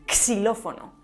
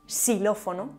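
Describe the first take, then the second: First: The word begins with a ks sound. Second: The word begins with an s sound. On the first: "además de como x o s" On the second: "además de como x o s"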